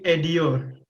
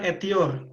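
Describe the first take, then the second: First: The consonant before the ending is a d. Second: The consonant before the ending is a t. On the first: The speaker calls it right. "tapi edior" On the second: The speaker calls it wrong. "bukan etior"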